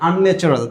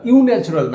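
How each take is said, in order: First: The word begins with an 'un' sound. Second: The word begins with a 'you' sound. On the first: The speaker calls it right. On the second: The speaker calls it wrong. "ইউ ন্যাচারাল না"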